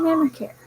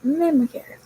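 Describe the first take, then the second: First: "memory care" stepped up in pitch; memory care said higher. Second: "memory care" again, pitched up and falling; memory care repeated higher. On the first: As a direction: lift "memory care" high and clear. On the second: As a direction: stress "memory care" with a high start. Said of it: "And I work". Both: Shown as a demonstration.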